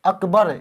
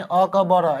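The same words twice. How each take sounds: First: अकबर said as one joined word; अकबर flowing, no breaks; correct smooth reading. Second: अ, क, ब, र chopped into separate syllables; wrong letter-by-letter reading. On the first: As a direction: run अकबर together as ak-bar. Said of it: "ये होगा सही". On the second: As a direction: spell out अ, क, ब, र with a break after each. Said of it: "ऐसे नहीं पढ़ते हैं". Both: Shown as a demonstration.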